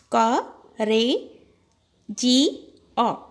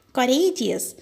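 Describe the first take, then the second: First: COURAGEOUS broken into "Ka, re, ji, o"; four separate beats, pausing between each; syllable by syllable. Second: Said in the usual way. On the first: Shown as a demonstration. Teacher splitting a word for children, Ka, re, ji, o spaced out. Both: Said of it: "we have to split it".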